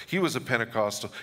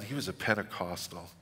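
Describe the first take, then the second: First: Said in the usual way. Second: Dropped low and soft as a teasing aside; joking aside. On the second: Shown as a demonstration. Preacher teasing the congregation, quiet joking aside. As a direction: murmur "Pentecostal" as a wink to the room. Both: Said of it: "I say that jokingly".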